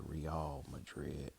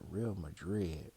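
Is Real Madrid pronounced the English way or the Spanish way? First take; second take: Spanish; English. First: The name is said with a Spanish pronunciation. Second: The name is said with an English pronunciation. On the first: This is how the team's own people say it. "I think they probably pronounce it Real Madrid" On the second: This is how the speaker usually says it. "but Real Madrid"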